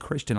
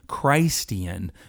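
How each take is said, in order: First: The first syllable sounds like 'kris'. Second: The first syllable sounds like 'Christ'.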